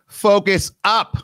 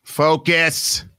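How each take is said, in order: First: Higher, louder, slower command; drill-sergeant order to focus; commanding call. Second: Said in the usual way. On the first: Real, not acted. Host calling out a listener, commanding.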